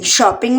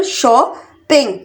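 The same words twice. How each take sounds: First: Said in the usual way. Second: shopping slowly in two separate beats; split into syllables. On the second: Shown as a demonstration. Teacher counting out two syllables for learners, syllable by syllable. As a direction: pause between शॉ and ping. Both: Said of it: "shopping में भी टू syllable".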